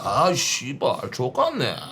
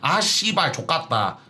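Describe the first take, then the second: First: It is said in a lowered, deep voice. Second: It is said in a normal voice.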